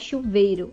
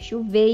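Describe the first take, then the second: First: The stressed vowel is a plain 'e' sound. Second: The stressed vowel glides from 'e' to 'i'. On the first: The speaker calls it wrong. "não é chuveiro" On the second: The speaker calls it right. "tem a vogal i aí"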